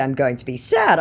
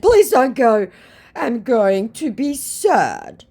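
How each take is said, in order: First: Said in the usual way. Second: Much higher, with the sad part very slow; whiny hammed-up begging; mock pleading scammer. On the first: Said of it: "And in response to". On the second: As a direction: scammer begging her to stay, high and slow. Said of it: "he hurriedly said".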